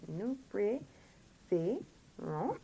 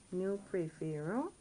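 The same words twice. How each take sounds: First: "Nous préférons" very slowly, every syllable separate and rising; teacher's drawn-out breakdown of "Nous préférons"; different pronunciation. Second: Said in the usual way. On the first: Shown as a demonstration. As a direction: sound out "Nous préférons" with gaps between syllables. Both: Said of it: "Now we get a different pronunciation".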